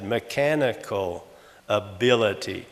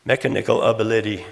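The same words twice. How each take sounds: First: "mechanical ability" slow, with "ca" and "bil" stressed; normal second-syllable stress. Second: "Mechanical ability" stressed on ME and AB; stress on first and third syllables. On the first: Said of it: "second syllable is stressed". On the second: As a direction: hit the first and third syllables, not the second. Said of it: "remove that accent". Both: Shown as a demonstration.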